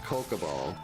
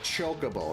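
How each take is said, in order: First: The name begins with a k sound. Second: The name begins with a ch sound. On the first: The speaker calls it wrong. "not Kokobo" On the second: The speaker calls it right. "it was like Chocobo"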